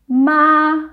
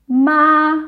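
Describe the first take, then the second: First: The pitch stays high and level. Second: The same.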